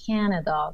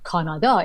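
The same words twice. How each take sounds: First: The stress falls on the first syllable. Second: The stress falls on a later syllable. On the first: The speaker calls it right. "So da da da. That's the rhythm" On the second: The speaker calls it wrong. "it's not like"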